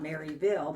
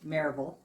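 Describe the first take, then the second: First: It is said in the outsider's way. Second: It is said in the local way. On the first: The speaker calls it wrong. "It's not Maryville" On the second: The speaker calls it right. "that's how the locals say it"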